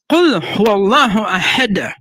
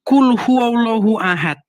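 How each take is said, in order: First: The final d of ahad ends with a bounce. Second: The final d of ahad ends flat, without echo. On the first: The speaker calls it right. "tapi ... Harus ahad gitu" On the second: The speaker calls it wrong. "bacanya bukan"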